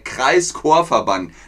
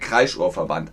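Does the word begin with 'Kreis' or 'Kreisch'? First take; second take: Kreis; Kreisch. First: It is split as Kreis plus Chor. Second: It is split as kreisch plus or. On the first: It is an association of choirs in a district. The speaker calls it right. "also der Kreischorverband" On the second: It suggests shrieking. The speaker calls it wrong. "nicht der Kreischorverband"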